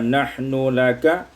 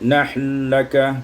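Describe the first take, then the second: First: The n and l are said separately. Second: The n merges into the following l.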